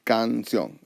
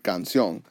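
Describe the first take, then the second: First: "canción" split into can and ción; divided into syllables. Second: Said in the usual way. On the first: Shown as a demonstration. Teacher dividing the word for learners, "canción" syllable by syllable. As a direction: draw out each syllable of "canción". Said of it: "we're gonna divide the word". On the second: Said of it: "has two syllables".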